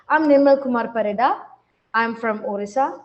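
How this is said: It is slow with a pause after the name.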